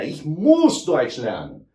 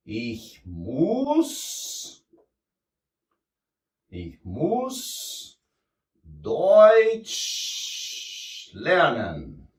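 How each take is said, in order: First: Said in the usual way. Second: Frase quebrada com pausas longas, palavra por palavra; ditado devagar. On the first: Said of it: "esse aqui é de obrigação". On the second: Shown as a demonstration. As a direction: dite devagar enquanto escreve. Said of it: "Que é o müssen". (lento, com pausas entre as palavras)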